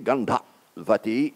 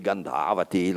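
First: The vowel before 'vati' is short. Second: The vowel before 'vati' is long. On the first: The speaker calls it right. "But the short A, Gandhavati, is in dictionaries" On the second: The speaker calls it wrong. "I know it should be Gandhavati, like Sukhavati, Amaravati ... but the long A is not found in any text"

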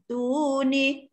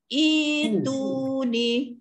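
First: The word starts with 't', with no initial vowel. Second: The word starts with an 'i' vowel. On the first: It is joined to the previous word. "kalau kita sambung ya" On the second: Reading restarts after a stop on the previous word. "kalau kita wakafkan kepada samawat, kita mula dengan itu ni"

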